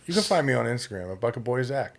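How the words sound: It is said softly and passively. "Now I'm passive"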